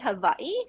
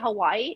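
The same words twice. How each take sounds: First: The middle consonant is a V sound. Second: The middle consonant is a W sound. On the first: This is how native Hawaiians say it. "true Hawaiians um, call Hawaii Hawaii because the W's in Hawaii is pronounced uh, like a V" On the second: This is how most visitors say it. "most people say Hawaii"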